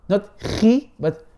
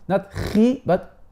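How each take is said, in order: Both takes have the same delivery.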